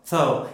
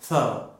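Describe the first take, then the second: First: The R sound is very soft or missing. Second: The same.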